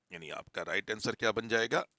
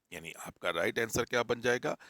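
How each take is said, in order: The two takes are said the same way.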